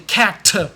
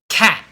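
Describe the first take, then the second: First: The final T is strongly and clearly released. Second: The final T is stopped with no release. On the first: The speaker calls it wrong. "you should never say cat. Never do that" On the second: The speaker calls it right. "There's no T when I say cat because I stop really quickly"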